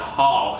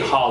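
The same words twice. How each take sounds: First: The word is pronounced with the 'haul' vowel. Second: The word is pronounced like 'hall'. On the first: The speaker calls it right. "It's H A U L, like haul" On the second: The speaker calls it wrong. "I always say haul like H A L L"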